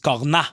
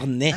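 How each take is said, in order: First: The word ends with an open 'ah' vowel. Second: The word ends with an 'ay' vowel. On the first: This is how the old-fashioned ice cream stands say it. "celles où ils disent corna" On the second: This is the usual way to say it.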